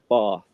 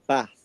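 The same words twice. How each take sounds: First: Said in a southern English accent. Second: Said in a northern English accent. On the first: "instead of Bath" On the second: "where they start saying like Bath"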